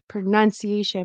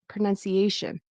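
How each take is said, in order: First: The stress is not on the 'a' syllable. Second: The stress is on the 'a' syllable. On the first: The speaker calls it wrong. "I thought I heard pronunciation" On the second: The speaker calls it right. "should be pronunciation. ... This is stressed right before"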